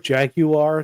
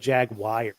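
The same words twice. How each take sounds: First: The word ends with a plain 'ar' sound. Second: The word ends with a 'wire' sound. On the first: The speaker calls it right. "I actually prefer Jaguar" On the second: The speaker calls it wrong. "people who say Jaguar because there's no I"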